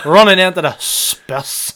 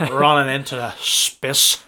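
First: Put-on "Running into the spiss" slowed down in a Northern Irish accent, breaking into laughter; Northern Irish commentator mimicry cracking up; laughing commentator impression. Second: Slow, monotone Northern Irish commentator saying "running into the spiss"; mock Northern Irish commentary, slowed down. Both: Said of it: "Every time I do the Nordy accent".

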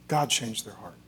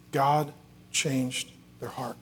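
First: Low, soft, connected phrase; quiet, awed echo of a key line; hushed reverence. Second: Slow, separated words, softened; solemn emphasis. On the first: Preacher dwelling on the child's change, hushed reverence. Climax repeated more softly. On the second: Preacher telling how the child changed, solemn and slow. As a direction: let each word land, slowly. Climax stated, then repeated softer. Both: Real, not acted.

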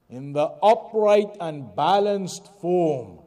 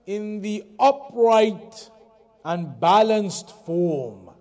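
First: Said in the usual way. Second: Slow, "upright" and "balanced" each leaned on louder; slow emphasis. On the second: Shown as a demonstration. Teacher stressing the meaning of kabad, slow and weighty. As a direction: space the words and press "upright" and "balanced".

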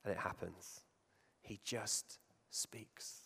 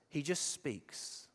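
First: Breathy hushed whisper, very slow. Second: Soft and slow, each word placed; quiet, slow. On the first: Preacher to congregation, stressing Jesus' calm power, whispered slowly. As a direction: drop to a slow whisper, almost secret. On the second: Preacher to congregation, showing Jesus' calm, quiet and slow. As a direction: let it land quietly and unhurried. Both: Shown as a demonstration. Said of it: "Do you see the difference?".

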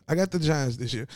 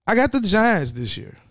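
First: Said in the usual way. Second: Bold declaration. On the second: Real, not acted. Bold prediction shouted.

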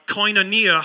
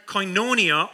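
First: Koinonia said koy-no-NEE-a; alternative pronunciation of koinonia. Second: Koinonia said koy-NO-nee-a; first pronunciation of koinonia. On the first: Preacher offering another way to say it, koinonia as koy-no-NEE-a. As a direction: move the stress to NEE in koinonia. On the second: Preacher offering a Greek word to the congregation, koinonia as koy-NO-nee-a. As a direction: stress the middle NO in koinonia. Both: Shown as a demonstration. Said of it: "however you want to say it".

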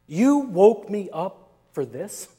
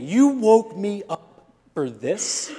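First: Lightly voiced annoyed Jesus; a mild put-upon grumble; annoyed rebuke. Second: Slow, exasperated retort; a drawn-out disbelieving grumble. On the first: Imagining Jesus scolding the disciples, mildly annoyed. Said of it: "this is the way I imagine it". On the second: Retold or imitated. Father woken by the kids, mildly exasperated. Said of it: "And I thought".

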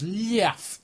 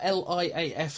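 First: "liaf" read as one word; acronym as word. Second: Said in the usual way. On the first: Shown as a demonstration. Puzzled co-host reads out the notes, "liaf" as one word. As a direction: run "liaf" together as a single word, not letters. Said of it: "it just says liaf in the notes".

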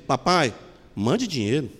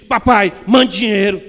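First: Mother reads it as a gentle plea; tender plea. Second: Father reads it as a cold order; curt demand. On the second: Father reading the son's telegram as a rude demand, louder. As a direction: read as a blunt demand, louder. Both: Retold or imitated. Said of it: "não está escrito assim".

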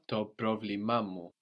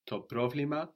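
First: Το πρόβλημά μου with a second stress on the final -μά; πρόβλημά μου stressed on -βλ- and again on -μά before μου; secondary accent. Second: Το πρόβλημα with a single stress on -βλ-; the plain word, one accent only. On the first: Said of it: "it gets two". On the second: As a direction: say πρόβλημα stressed only on the first syllable, ending on a rise. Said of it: "my problem rather than το πρόβλημα". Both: Shown as a demonstration.

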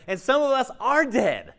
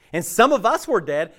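First: "are" lifted high in pitch; stress on ARE. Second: "were" set up against what follows; stress on WERE. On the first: Preacher warning some listeners are still dead, stress on "are". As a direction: punch "are" as the contrast. Contrasts present with past state. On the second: Preacher on humanity's spiritual death, stress on "were". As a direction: lean on the word "were". Contrasts past with present state. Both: Real, not acted.

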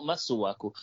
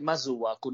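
First: Masuaku with a plain hissed s; alternative pronunciation. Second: Masuaku with a z in place of s; imitated pronunciation. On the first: Shown as a demonstration. Co-host repeats the other reading for Kylie, s in Masuaku. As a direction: say Masuaku as "Massuaku". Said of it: "why is it Masuaku, not Masuaku?". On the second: Co-host explains the question to Kylie, imitated z in Masuaku. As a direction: say Masuaku as "Mazuaku". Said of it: "You're mocking my accent now".

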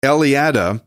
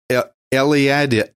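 First: Eliada said whole as el-ee-AD-uh, clean and falling; careful retry. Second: Eliada started as El- and restarted, unsure; stumbled name. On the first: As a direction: get Eliada right this time, el-ee-AD-uh in one go. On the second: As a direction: trip over Eliada, break off after El- and start it again. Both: Real, not acted. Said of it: "why do I have trouble with that one?".

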